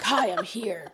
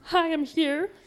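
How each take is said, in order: First: The greeting sounds cold and threatening. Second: The greeting sounds light and friendly. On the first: The thoughts are an unwelcome intrusion. The speaker calls it right. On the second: The thoughts are harmless visitors. The speaker calls it wrong.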